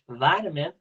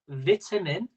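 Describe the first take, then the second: First: It is said in an American accent. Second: It is said in a British accent.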